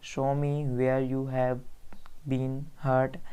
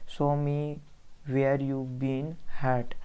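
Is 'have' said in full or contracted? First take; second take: full; contracted. First: The word have is said in full. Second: The word have is contracted.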